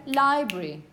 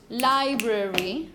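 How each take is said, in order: First: "library" squeezed to li-bry, schwa dropped; "library" in two beats, falling at the end; two syllables. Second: "library" slowly as li-bra-ry, schwa kept; full, slow "library", middle vowel sounded; three syllables. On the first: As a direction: say "library" without its middle vowel. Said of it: "Two syllables". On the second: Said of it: "you could say it with three syllables". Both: Shown as a demonstration.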